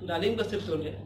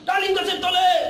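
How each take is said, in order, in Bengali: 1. এটি শান্ত, স্বাভাবিক আওয়াজে আবৃত্তি করা হয়। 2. এটি খুব জোরে ও জোর দিয়ে আবৃত্তি করা হয়। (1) "একজন সুস্থ সবল ব্যক্তি আসছে, ওই উনি একজন ভালো আবৃত্তি করে" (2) "সে জোরে জোরে আসছে"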